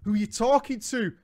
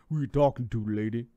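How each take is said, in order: First: It is said in a normal voice. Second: It is said in a put-on deep voice.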